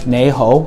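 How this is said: It is pronounced with Cantonese sounds and tones. "in Cantonese, even though the words are the same, you pronounce it nei ho"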